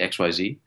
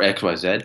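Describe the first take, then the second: First: The letters are said the American way. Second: The letters are said the Canadian way. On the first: This is how the speaker learned it in Jersey. "I say X Y Z ... I have an Americanized alphabet" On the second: This is how Canadians say it. "Canadians say"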